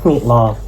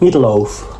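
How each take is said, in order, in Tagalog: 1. Ito ay binibigkas sa Singaporean accent. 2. Ito ay binibigkas sa American accent. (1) "pag galing uh, Singapore?" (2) "so pag galing Amerika?"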